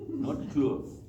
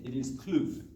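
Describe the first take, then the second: First: Said in the usual way. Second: Kloof in a KZN accent, said "Kluf". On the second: Shown as a demonstration. Coach demos the local accent: Kloof as "Kluf". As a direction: say "Kloof" the Durban way, a short "Kluf". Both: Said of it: "get the accent right".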